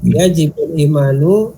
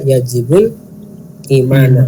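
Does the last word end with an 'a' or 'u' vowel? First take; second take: u; a. First: The last word ends with a 'u' vowel. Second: The last word ends with an 'a' vowel. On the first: The faith is the subject of the verb. The speaker calls it wrong. "imannya sebagai fa'il, tapi ya tidak nyambung maknanya" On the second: The faith is the object of the verb. The speaker calls it right. "dibaca maf'ul bih"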